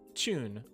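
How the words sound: It starts with a ch-like sound. "if somebody was speaking British English, they would probably say tune or tube, as you can hear the kind of chew sound"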